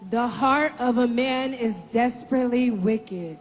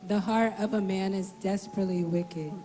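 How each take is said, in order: First: It is said at a louder volume. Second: It is said at a quieter volume.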